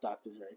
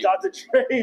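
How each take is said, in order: First: The name is said at a normal volume. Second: The name is said loudly.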